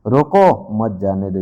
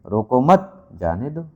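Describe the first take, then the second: First: Stressed रोको, a break, then मत जाने दो together; pause after रोको. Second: रोको मत as one group with मत stressed, then जाने दो; pause after मत. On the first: Teacher explaining an order to stop someone, pause after रोको. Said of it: "किसी को रोकने की बात". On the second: Teacher reading the second example sentence, pause after मत. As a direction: hold the break until after मत, then say जाने दो. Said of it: "दूसरे वाक्य में देखिए". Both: Shown as a demonstration.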